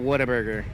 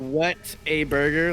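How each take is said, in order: First: The words are run together into one word. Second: The three words are said clearly separated. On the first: "in Texas with our accent, it turned into Whataburger" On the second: "what a burger, like W H A T"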